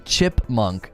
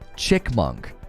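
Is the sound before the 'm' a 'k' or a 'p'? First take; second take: p; k. First: The word has a 'p' sound before 'munk'. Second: The word has a 'k' sound before 'munk'. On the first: "My kids don't say chipmunk" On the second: "They say chick, chickmunk"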